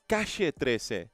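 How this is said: It is said in an Argentine Spanish accent. "it would be"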